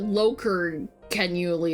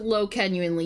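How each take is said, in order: First: An extra syllable sits between low and genuinely. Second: Low runs straight into genuinely, no middle syllable. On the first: The speaker calls it right. "You pronounce it loker-genuinely or some shit like that" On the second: The speaker calls it wrong. "you don't pronounce it low-genuinely"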